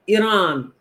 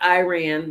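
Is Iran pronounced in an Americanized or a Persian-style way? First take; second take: Persian-style; Americanized. First: Iran is pronounced the Persian way. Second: Iran is pronounced the Americanized way. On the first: The speaker calls it right. "Iran, not Iran" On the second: The speaker calls it wrong. "We want it to be American, and it's incorrect"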